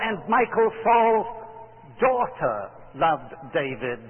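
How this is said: The word daughter is stressed. A daughter, not only a son, loved him. "do you emphasize the word daughter"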